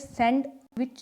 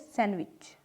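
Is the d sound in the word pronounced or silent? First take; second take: pronounced; silent. First: The d sound is clearly pronounced. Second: The d sound is dropped entirely. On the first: The speaker calls it wrong. "इसमें सैंडविच नहीं बोलेंगे" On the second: The speaker calls it right. "इसे सैंडविच"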